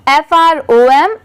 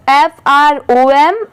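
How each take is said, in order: Both takes have the same delivery.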